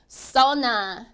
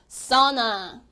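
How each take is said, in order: The two takes are said the same way.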